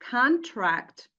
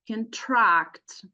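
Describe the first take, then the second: First: The stress is on the first syllable. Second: The stress is on the second syllable. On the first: It names a written agreement between two parties. "if we stress the first syllable will be uh, pointing to nouns" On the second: It is an action meaning to make something shorter. "if we stress the second syllable"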